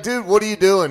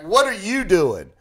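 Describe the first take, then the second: First: Said in the usual way. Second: "you" punched, throwing the question back; retold retort leaning hard on "you"; stress on YOU. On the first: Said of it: "I'm like". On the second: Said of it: "He's like".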